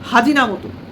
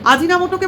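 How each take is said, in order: First: The word begins with an added H sound. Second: The word begins directly with a vowel. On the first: The speaker calls it wrong. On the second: The speaker calls it right.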